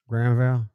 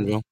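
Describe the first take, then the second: First: The name is said in a Southern accent. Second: The name is said in a plain accent. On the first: "like a weird Southern way" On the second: "Am I saying that right?"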